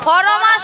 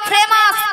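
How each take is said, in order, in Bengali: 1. শব্দটি 'for' ধ্বনি দিয়ে শুরু হয়। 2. শব্দটি 'fre' ধ্বনি দিয়ে শুরু হয়। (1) "ফরমাস নয় মাসি" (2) "বলো ফ্রেমাস"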